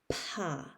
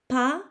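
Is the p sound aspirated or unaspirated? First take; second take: aspirated; unaspirated. First: The p has a puff of air after it. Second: The p has no puff of air after it. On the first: "the aspirated would sound more like pa" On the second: "The voiceless might sound more like pa"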